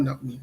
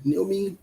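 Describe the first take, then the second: First: "Naomi" starting with a "nah" sound; rejected pronunciation. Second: "Naomi" with first syllable like "nee"; corrected pronunciation. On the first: Host rejecting a reading of the name, rejected pronunciation. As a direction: say "Naomi" softly, opening on "nah". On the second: Host correcting a viewer's name, corrected pronunciation. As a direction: say "Naomi" higher, roughly NEEL-mee. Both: Shown as a demonstration. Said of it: "Not Naomi".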